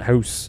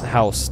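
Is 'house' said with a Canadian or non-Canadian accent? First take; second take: Canadian; non-Canadian. First: The word is said in a Canadian accent. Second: The word is said in a non-Canadian accent. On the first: This is how a real Canadian says it. The speaker calls it right. "not house" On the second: The speaker is not really Canadian. The speaker calls it wrong. "you said house"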